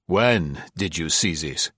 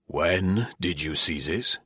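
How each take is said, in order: First: Mildly doubting question; incredulous demand. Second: Slow, softer, measured question; repeated demand. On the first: General questions Marie, still incredulous. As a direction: question her with restrained incredulity. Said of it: "Still in a tone of incredulity". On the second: General presses Marie for an answer, slowly insistent. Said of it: "repeated the general". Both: Acted.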